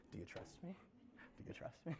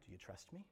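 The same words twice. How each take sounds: First: Breathy whispered question. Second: Low, hushed ask; soft question. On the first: God asking the listener, whispered. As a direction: whisper it intimately. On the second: God asking the listener, quiet low question. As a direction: gently ask it. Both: Acted.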